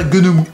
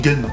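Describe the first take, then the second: First: The title is said with three full syllables. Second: The title is said as one short syllable. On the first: This is how it is said in Japan. "Au Japon, on prononce ça Gunemu" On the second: This is the easy everyday way people say it. "on dit Gun, hein, on s'embête pas"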